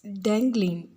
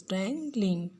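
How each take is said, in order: First: Said in the usual way. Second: "Dangling" parted slightly as dang, ling; split into syllables. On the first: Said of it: "Dang is the wo". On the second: Shown as a demonstration. Teacher showing the second syllable, "Dangling" split in two. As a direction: let both syllables of "Dangling" stand apart. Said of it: "ling is the second syllable".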